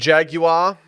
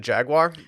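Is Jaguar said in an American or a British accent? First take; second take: British; American. First: The word is said in a British accent. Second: The word is said in a plain American accent.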